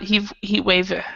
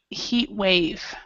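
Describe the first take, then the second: First: An extra vowel is added after heat. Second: No vowel is added after heat. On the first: The speaker calls it wrong. "So it's not" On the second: The speaker calls it right. "try not to pronounce it"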